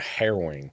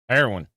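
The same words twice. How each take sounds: First: It is said in his ordinary accent. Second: It is said with a Southern twang.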